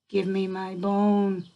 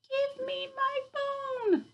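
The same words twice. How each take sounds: First: It is said a bit louder than before. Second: It is said in a soft, small voice.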